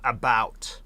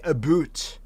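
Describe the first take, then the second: First: It is said with an American accent. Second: It is said with a Canadian accent. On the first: The speaker calls it wrong. "not about" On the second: The speaker calls it right. "we say about"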